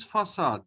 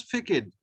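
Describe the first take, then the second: First: 'facade' said fa-SAHD, C as S; soft C. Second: 'facade' misread as fay-KADE; hard K for the C in 'facade'; hard C mispronunciation. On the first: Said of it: "this C behaves like saw". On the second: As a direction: say 'facade' with a K in the middle. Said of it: "we do not pronounce it as". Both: Shown as a demonstration.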